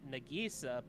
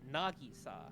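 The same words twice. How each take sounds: First: The name is said with English-style pronunciation. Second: The name is said with Japanese-style pronunciation. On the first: The speaker calls it wrong. "in English dub, people pronounce it" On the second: The speaker calls it right. "the proper way to pronounce her name"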